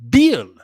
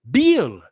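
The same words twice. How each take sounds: No difference in how they are said.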